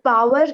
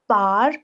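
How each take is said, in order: First: The word has two clear syllables, pow-er. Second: The word is shortened to one syllable, like 'par'. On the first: "power is American English" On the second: "par is British English"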